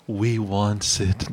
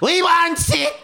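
First: It is said softly in a plain voice. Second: It is said in a raspy Gollum voice.

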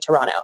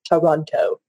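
First: The second T sound is dropped. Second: The second T sound is pronounced. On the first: "You don't pronounce the second T most of the time. Most Canadians would say Toronto" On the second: "as opposed to Toronto"

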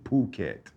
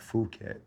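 First: The name begins with a p sound. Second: The name begins with an f sound. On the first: The speaker calls it right. "it's ... Phuket ... H is silent" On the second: The speaker calls it wrong. "not Phuket"

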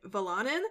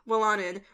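First: The name begins with a V sound. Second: The name begins with a W sound. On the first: The speaker calls it wrong. "I thought the W was pronounced like a V" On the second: The speaker calls it right. "it's supposed to be Willanen"

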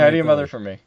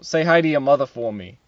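First: It is spoken in a Philadelphia accent. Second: It is spoken in a Boston accent. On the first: "say it in Philly" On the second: "Boston is like, you know"

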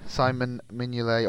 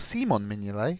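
First: The name is said with English-style pronunciation. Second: The name is said with continental European pronunciation.

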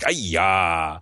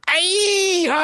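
First: It is said louder. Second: It is said very loudly.

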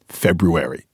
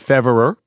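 First: It is said with a 'br' cluster. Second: It is said as 'Feverer' without 'br'. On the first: The speaker calls it wrong. "Sounds like a disease" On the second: The speaker calls it right. "we had Feverer, Middle English, everything's fine"

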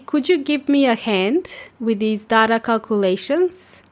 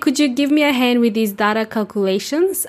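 First: The sentence is spoken slowly. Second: The sentence is spoken at normal speed.

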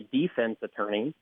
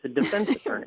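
First: The stress in defense is on the first syllable. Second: The stress in defense is on the second syllable. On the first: The speaker calls it wrong. "You never hear someone say" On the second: The speaker calls it right. "It's a defense attorney"

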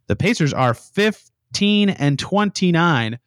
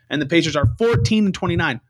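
First: It is said slowly. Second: It is said at normal speed.

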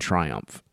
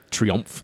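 First: The name is pronounced like the English word. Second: The name is pronounced like the French word. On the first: The speaker calls it wrong. "I say that wrong all the time" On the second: The speaker calls it right. "Triumph, that is"

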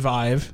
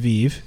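First: The word is said with an English pronunciation. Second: The word is said with a French pronunciation.

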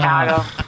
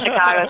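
First: Chicago is said with a broad Midwest A. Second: Chicago is said with a neutral A.

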